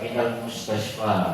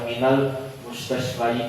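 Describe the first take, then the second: First: The last word ends in a plain long 'a'. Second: The last word ends with an added 'yi' syllable. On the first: The speaker calls it right. "dibaca seperti biasa" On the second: The speaker calls it wrong. "tidak dibaca"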